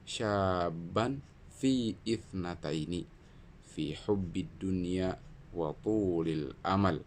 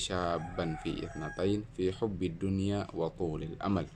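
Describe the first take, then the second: First: It is recited slowly and carefully. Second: It is recited at a somewhat quicker pace. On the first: "pelan tartil" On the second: "lebih sedikit lebih cepat"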